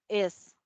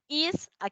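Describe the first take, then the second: First: The vowel is a relaxed sound near e. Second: The vowel is a tense, long ee sound. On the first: "¿Ven que tiene un sonido más como E?" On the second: "no es lo mismo que yo diga is a"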